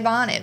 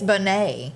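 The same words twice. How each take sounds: First: It is said like the plain English word. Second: It is said with a French-sounding ending. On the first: This is the reading a stranger would guess. The speaker calls it wrong. "if you didn't know, you'd say bonnet" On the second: This is how the family really says it. The speaker calls it right. "it's like sounds French or something"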